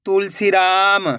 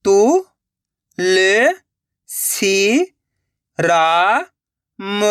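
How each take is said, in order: First: Slow, stretched reading of the whole word; joined-up word. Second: Syllable by syllable. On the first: Teacher showing learners the finished word, slowly joined up. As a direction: blend the syllables into one drawn-out word. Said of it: "तो मिलके बन जाएगा". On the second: Teacher sounding out a word for learners, syllable by syllable. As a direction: separate drawn-out syllables with long gaps. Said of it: "एक एक अक्षर का उच्चारण करके". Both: Shown as a demonstration.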